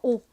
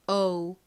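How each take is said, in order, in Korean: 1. 모음은 하나의 순수한 'o' 소리입니다. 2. 모음은 'o'에서 'u' 쪽으로 미끄러집니다. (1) "한국식으로는 오" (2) "실제 발음은 O, O와 같이 발음이 됩니다"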